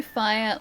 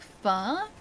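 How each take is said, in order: First: Said in the usual way. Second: "fa" as one long open vowel, no glide; fire flattened to fa. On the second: Shown as a demonstration. Streamer teasing about pronunciation, "fire" squashed to "fa". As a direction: stretch "fa" into a single drawn-out "ah". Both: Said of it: "don't say fire like fa".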